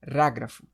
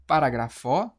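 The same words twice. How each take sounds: First: "parágrafo" as pa-RÁ-grafo, falling lower at the end; stress on RA. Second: "parágrafo" as paragra-FÓ, open o, rising; stress on final FO. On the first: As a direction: hit RÁ in "parágrafo" and let it drop. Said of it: "Ou você fala". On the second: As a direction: lean on the last syllable of "parágrafo" questioningly. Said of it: "Agora você vai falar, pronunciar". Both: Shown as a demonstration.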